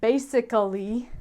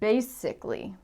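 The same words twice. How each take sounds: First: The unstressed vowel is fully pronounced. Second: The unstressed vowel is dropped. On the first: "some Americans might say basically" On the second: "for the most part we say basically"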